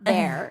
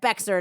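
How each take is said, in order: First: The name sounds like the word bear. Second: The name is pronounced with an x sound. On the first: The speaker calls it right. "not Bear" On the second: The speaker calls it wrong. "you said Bexar, not Bear"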